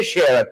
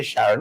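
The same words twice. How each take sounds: First: Sharon with the e of "share", SHEH-ron; local Sharon. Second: Sharon with the flat a of "cat", SHA-ron; outsider's Sharon. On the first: The host shows the viewers the local Sharon, said SHEH-ron. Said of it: "We say Sharon". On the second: The host teaches the viewers the outsider's Sharon, open a. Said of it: "you might say Sharon". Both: Shown as a demonstration.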